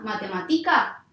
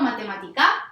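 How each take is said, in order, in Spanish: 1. El acento está en la penúltima sílaba. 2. El acento está en la última sílaba. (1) "no, grave tampoco va a ser" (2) "no, aguda no va a ser"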